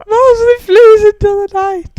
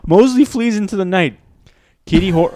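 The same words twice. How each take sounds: First: High, loud parody narrator; over-the-top imitation of dramatic narration; mocking high voice. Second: High, loud dramatic narration; theatrical, pitched-up storytelling. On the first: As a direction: tease with an exaggerated pitched-up wail. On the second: Acted. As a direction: let the voice climb as you narrate. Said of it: "Why did your voice go so high?".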